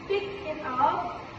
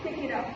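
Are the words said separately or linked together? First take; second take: separately; linked. First: The three words are said separately. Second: The three words run together as one. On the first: The speaker calls it wrong. "with uh, three separate words" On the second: The speaker calls it right. "we link them together, so it sounds like"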